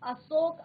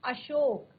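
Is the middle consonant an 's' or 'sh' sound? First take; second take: s; sh. First: The middle consonant is a plain 's' sound. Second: The middle consonant is an 'sh' sound. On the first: The speaker calls it wrong. "अशोक आपका सही शब्द नहीं है" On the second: The speaker calls it right. "सही शब्द है अशोक, ... श, इस तरह का आपने साउंड निकालना है"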